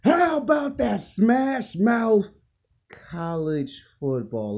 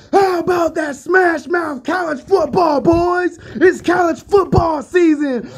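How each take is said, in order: First: Said in the usual way. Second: Over-the-top high, loud hype shout; feeling and emotion. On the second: Shown as a demonstration. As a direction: belt it out like a fired-up football announcer. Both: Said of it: "say that again with some feeling and emotion".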